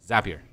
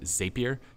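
First: The first syllable sounds like the word 'zap'. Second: The first syllable does not sound like 'zap'. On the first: The speaker calls it right. "It's Zapier" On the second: The speaker calls it wrong. "Why people somehow call it Zapier?"

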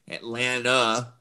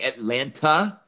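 First: The word ends in 'nuh' without a t sound. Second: The word ends with a clear t sound. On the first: The speaker is from the city. The speaker calls it right. "N-U-H on the end" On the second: The speaker is not from the city. The speaker calls it wrong. "that's an automatic sign you're not from Atlanta"

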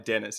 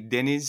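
First: The name is said with an English pronunciation. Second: The name is said with a Turkish pronunciation. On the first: This is the everyday form used with non-Turkish speakers. "so I go by Dennis" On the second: This is the original form of the name. "In Turkish, it'd be"

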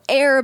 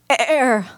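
First: The word is voiced smoothly and steadily. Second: The word is voiced with a strained, broken onset.

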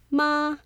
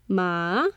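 First: The pitch stays high and level. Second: The pitch dips low, then rises.

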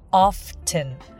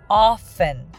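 First: The t sound is pronounced in the middle. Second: The t sound is left out in the middle.

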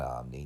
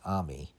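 First: An n sound follows the m. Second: No n sound follows the m. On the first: The speaker calls it wrong. "It's not Omni" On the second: The speaker calls it right. "it's Omi"

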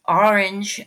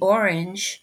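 First: The word is said with a New Jersey accent. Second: The word is said with a Californian accent. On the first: The speaker calls it wrong. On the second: The speaker calls it right.

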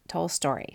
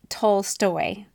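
First: The name ends with an added 'r', like 'story'. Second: The name ends with a plain 'stoy' sound. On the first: The speaker calls it wrong. "not Tolstoy. So sorry. I like to throw the word story around" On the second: The speaker calls it right.

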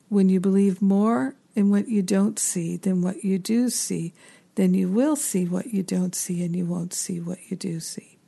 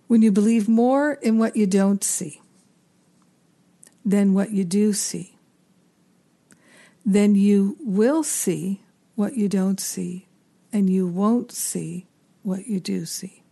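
First: It is said at a normal pace. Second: It is said slowly.

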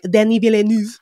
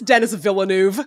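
First: The first name is said with French pronunciation. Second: The first name is said like English Dennis. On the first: The speaker is showing off careful native pronunciation. "He's a lot of like, Denis Villeneuve. Never going to say Dennis" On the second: The name is said in a plain everyday way. "it's Dennis"

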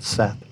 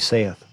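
First: It is said like the name 'Seth'. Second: It is said as spelled, like 'sayth'. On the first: The speaker calls it right. "but Seth" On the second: The speaker calls it wrong. "It looks like it should be saith"

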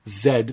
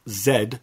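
First: The letter is said the Canadian way, zed. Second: The letter is said the Canadian way, zed.

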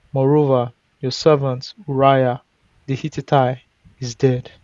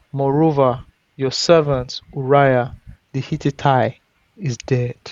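Both takes have the same delivery.

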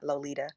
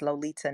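First: The middle consonant is a soft D-like sound. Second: The middle consonant is a clear T sound. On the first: The speaker calls it wrong. "not Lolita" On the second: The speaker calls it right. "I'm Lolita with a T"

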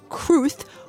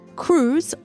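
First: The name ends with a th sound. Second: The name ends with a z sound. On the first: This is the name's owner's own pronunciation. The speaker calls it right. "With a theta" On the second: This is the commonly used anglicized pronunciation. The speaker calls it wrong. "we've been mispronouncing"

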